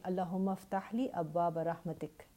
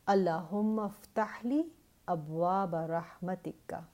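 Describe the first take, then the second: First: The last word ends on a bare consonant. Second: The last word ends with a final vowel.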